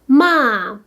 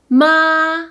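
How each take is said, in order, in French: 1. Le ton chute brusquement du haut vers le bas. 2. Le ton reste haut et plat.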